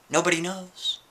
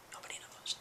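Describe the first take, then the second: First: Leise geflüstert, geheimnisvoll; whisper. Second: A barely audible whisper; fading whisper. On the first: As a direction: whisper it like a secret. Spooky aside to audience. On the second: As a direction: let the whisper die away, even fainter. Spooky aside, repeated fainter. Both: Acted.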